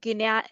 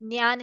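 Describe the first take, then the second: First: The word begins with a plain 'gy' sound. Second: The word begins with a sound other than 'gy'. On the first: The speaker calls it wrong. "It is not ज्ञान. ग और य कारण नहीं है" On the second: The speaker calls it right. "ज्ञान है"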